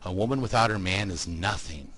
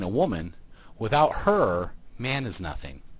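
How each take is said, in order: First: It is said with no pauses inside. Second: It has pauses after 'woman' and 'her'.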